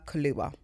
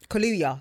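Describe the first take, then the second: First: The name sounds like the drink Kahlua. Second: The name sounds like Kaluuya, not the drink. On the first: The speaker calls it wrong. "I said Kaluuya like the drink" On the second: The speaker calls it right.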